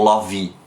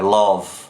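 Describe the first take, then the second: First: An extra vowel sound follows the final v. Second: The word ends on a buzzing v sound. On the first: The speaker calls it wrong. "ele não é love ou love" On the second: The speaker calls it right. "é love. Esse v fica vibrando"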